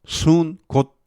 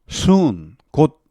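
The two takes are said the same way.

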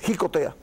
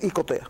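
First: The word begins with a breathy consonant sound. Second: The word begins directly with a vowel sound. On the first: This is the accepted dictionary form. The speaker calls it right. "la Real Academia entiende que es jicotea" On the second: This is not the accepted dictionary form. The speaker calls it wrong. "No es icotea"

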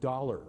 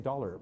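First: The word is said long and drawn out, with an American accent. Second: The word is said short and clipped, with a Canadian accent. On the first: The speaker calls it right. "But the American sound is, I put my tongue up at 45 degrees and I go dollar" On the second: The speaker calls it wrong. "if I just say dollar, well, that's what the American hears"

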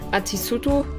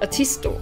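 First: The u after the s is fully voiced. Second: The u after the s is dropped. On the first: The speaker calls it wrong. "you don't say Atisuto" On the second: The speaker calls it right. "but Atisto"

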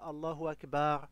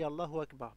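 First: The 'a' vowel in Akbar is drawn out long. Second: The 'a' vowel in Akbar is short. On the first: The speaker calls it wrong. "pas Allahu Akbar" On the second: The speaker calls it right. "sans prolonger le A"

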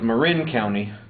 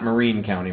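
First: The name's second syllable sounds like 'rin'. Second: The name's second syllable sounds like 'reen'. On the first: The speaker calls it right. "it's Marin County" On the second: The speaker calls it wrong. "not Marine County"

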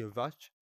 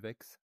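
First: The name ends with a 'sh' sound. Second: The name ends with a 'ks' sound. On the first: Someone else says the name this way. The speaker calls it wrong. "ou comme Zelbak dit Vach, mais c'est pas Vach" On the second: This is how the name is really pronounced. The speaker calls it right. "son pseudo se prononce Vex"

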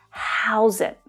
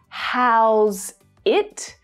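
First: The two words are linked together. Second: The two words are said separately. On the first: The speaker calls it right. "but how's it. They should push together those sounds" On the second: The speaker calls it wrong. "Not how's it"

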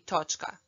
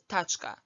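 First: The first vowel is an o sound. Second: The first vowel is an a sound. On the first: The speaker is from Croatia. "in Croatian, absolutely everyone will say točka" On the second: The speaker is from Bosnia. "whereas Bosnians will say tačka"

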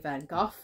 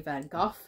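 First: The name is said the British English way. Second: The name is said the British English way.

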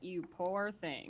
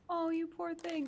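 First: It sounds cold and condescending. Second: It sounds warm and sympathetic.

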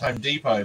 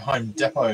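First: It is said with an American pronunciation. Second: It is said with an Australian pronunciation. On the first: This is how people say it in the United States. "I think the pronunciation over there is Home Depot" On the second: This is how people say it in Australia. "but we'd say Home Depot here"

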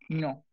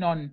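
First: The final n sound is silent. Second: A final n sound is pronounced. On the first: The speaker calls it right. "la última N no suena" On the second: The speaker calls it wrong. "No digan non"

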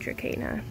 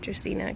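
First: The c is said as a hard k sound. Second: The c is said as a soft s sound. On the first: "I think it might be pronounced like a K" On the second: "I think it sounds prettier"

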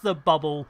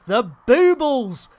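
First: The first vowel is a short 'uh' sound. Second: The first vowel is a long 'oo' sound. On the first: The speaker calls it wrong. "a lot of people mispronounce it as the bubble" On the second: The speaker calls it right. "but it is the boobles"

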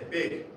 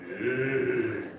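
First: The word is short at ordinary pitch. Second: The word is stretched out at low pitch.

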